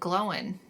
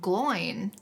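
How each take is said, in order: First: The name is said with a 'glow' sound, Glo-win. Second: The name is said with an 'oy' sound, Gloin. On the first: This is how the audiobook narrator says it. The speaker calls it wrong. "in the audiobook pronounces it Glowin" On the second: This is how the movies say it. The speaker calls it right. "in the movies, isn't it Gimli, son of Gloin? ... I think it is supposed to be Gloin"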